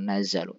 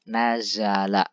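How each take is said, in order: First: The word ends with a u vowel. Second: The word ends with an a vowel. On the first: The speaker calls it wrong. "bukan nazalu" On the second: The speaker calls it right. "fi'il madhi yang mabni dengan fathah"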